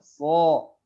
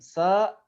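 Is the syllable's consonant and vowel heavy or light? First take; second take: heavy; light. First: The consonant and vowel sound heavy and thick. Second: The consonant and vowel sound light and thin. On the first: It turns into the letter shad. The speaker calls it wrong. "Tapi dibaca tebal sama dia" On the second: It is the letter sin. The speaker calls it right. "Sin, sa, tipis"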